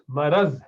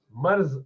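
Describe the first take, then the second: First: مرض said as "maraz", with a clear short a after the r; the right way, مرض as "ma-raz"; correct pronunciation. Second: مرض said as "marz", with no vowel after the r; the mistaken form, مرض as "marz"; wrong pronunciation. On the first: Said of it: "مرض ہے". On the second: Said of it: "مرض نہیں ہے لفظ". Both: Shown as a demonstration.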